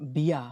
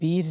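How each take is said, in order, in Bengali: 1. শব্দটি খোলা ah ধ্বনিতে শেষ হয়। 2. শব্দটি স্পষ্ট r ধ্বনিতে শেষ হয়।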